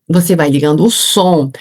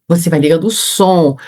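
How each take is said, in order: Both takes have the same delivery.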